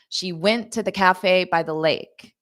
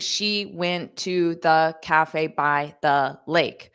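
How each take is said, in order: First: Stressed syllables stand out over short unstressed ones. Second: Every syllable gets equal weight and length. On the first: The speaker calls it right. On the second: The speaker calls it wrong.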